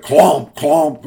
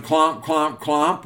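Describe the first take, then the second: First: Loud, punched imitation of big hooves; heavy clomps. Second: Said in the usual way. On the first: A narrator's reading. Big billy goat hits the bridge, loud heavy clomps. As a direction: hit each clomp like a heavy footfall. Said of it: "a little bit louder". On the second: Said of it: "clomp, a little bit louder".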